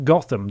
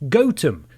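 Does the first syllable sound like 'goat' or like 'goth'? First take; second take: goth; goat. First: The first syllable sounds like 'goth'. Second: The first syllable sounds like 'goat'. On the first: This is how the fictional city's name is said. The speaker calls it wrong. "the way we pronounce the, fi- the fictional city Batman calls home" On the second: This is how the English village's name is said. The speaker calls it right. "actually pronounced Gotham, which means goat village"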